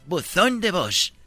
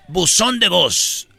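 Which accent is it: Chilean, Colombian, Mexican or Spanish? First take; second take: Spanish; Colombian. First: It is said in a Spanish accent. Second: It is said in a Colombian accent.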